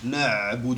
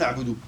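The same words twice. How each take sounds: First: The ayn sound is held a little longer. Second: The ayn sound is cut short. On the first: The speaker calls it right. "Le ayn, on le prolonge un peu" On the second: The speaker calls it wrong. "On ne dit pas"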